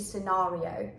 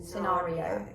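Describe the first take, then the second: First: It is said in a British accent. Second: The same.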